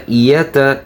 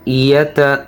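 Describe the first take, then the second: No difference in how they are said.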